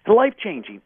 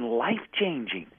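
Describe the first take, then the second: First: "Life-changing" repeated louder with a falling punch; emphatic repeat. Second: Said in the usual way. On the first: Shown as a demonstration. Repeating it to the host for weight, emphatic stress. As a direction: hit "Life-changing" hard and let it drop.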